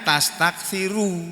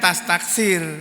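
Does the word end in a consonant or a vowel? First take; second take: vowel; consonant. First: The word ends with a final u vowel. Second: The word ends without a final vowel. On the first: This is the full form as it is written. "tapi tulisannya tastaksiru" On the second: This is how it is read when pausing. "Membacanya tastaksir"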